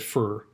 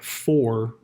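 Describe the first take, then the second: First: The word has a reduced, mumbled vowel. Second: The word has a full, open vowel. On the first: The speaker calls it wrong. "instead of fur" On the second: The speaker calls it right. "You have to say words like for"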